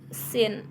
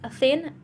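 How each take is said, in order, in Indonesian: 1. Kata ini diawali dengan bunyi s yang mendesis. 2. Kata ini diawali dengan bunyi th yang lembut. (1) "orang Jepang biasa mengucapkan dengan kata sin" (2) "Lebih jelas thin"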